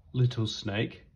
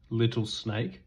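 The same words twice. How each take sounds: The two takes are said the same way.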